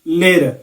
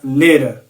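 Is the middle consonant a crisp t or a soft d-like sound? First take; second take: soft d-like; soft d-like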